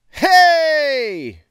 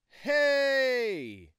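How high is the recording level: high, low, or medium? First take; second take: medium; low. First: Recorded at medium gain with no audible hiss. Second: Recorded at low gain with no audible hiss. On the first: "Gain is at fifty percent. This is working volume"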